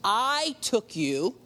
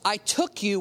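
First: I drawn out slow, then rising through "took you"; stress on I. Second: Said in the usual way. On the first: Shown as a demonstration. Preacher re-reading God's words to David, stress on I. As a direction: stretch the word I, slow and deliberate. Repeats verse after "watch this.

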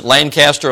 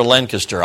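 First: Lancaster with a full CAST in the middle; full-vowel pronunciation. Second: Lancaster squeezed into LANK-uh-ster; local reduced pronunciation. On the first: Visitor asking locals how to say it, Lancaster as LAN-cast-er. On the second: Visitor offering the other option, Lancaster as LANK-uh-ster. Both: Shown as a demonstration. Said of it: "Is it Lancaster or Lancaster?".

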